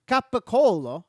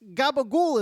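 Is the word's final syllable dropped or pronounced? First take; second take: pronounced; dropped. First: The word ends with its full final syllable. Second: The word ends without its final vowel syllable. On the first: The speaker calls it right. "It's it's capicolo" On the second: The speaker calls it wrong. "gabagool is not a thing"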